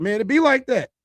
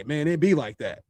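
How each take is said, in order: First: Casual shrug. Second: Resigned shrug. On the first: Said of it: "I'd be like". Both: Retold or imitated.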